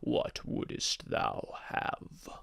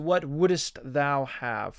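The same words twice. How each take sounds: First: It is read in a put-on genie character voice. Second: It is read in the speaker's ordinary voice.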